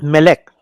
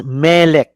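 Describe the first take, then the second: First: "Melech" with a short first syllable, weight on the second; "Melech" as meh-LEKH; wrongly placed stress. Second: "Melech" with a long, stressed first syllable; "Melech" as MEH-lekh, first syllable drawn out. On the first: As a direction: clip the Me and stress lech in "Melech". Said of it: "not Melech". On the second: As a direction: lean on the Me in "Melech". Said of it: "pronounced as Melech, not Melech". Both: Shown as a demonstration.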